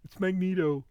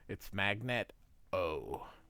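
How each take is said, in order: First: The middle syllable sounds like 'neet'. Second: The middle syllable sounds like 'net'. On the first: The speaker calls it wrong. "some people are like" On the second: The speaker calls it right. "it's Magnet with an O"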